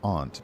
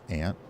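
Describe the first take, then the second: First: It has a broad 'ah' vowel, like 'father'. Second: It sounds like the insect word 'ant'. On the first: This avoids confusion with the insect. "I also sometimes will change it up to aunt" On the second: This is the usual family pronunciation. "my family, being from the south, says aunt"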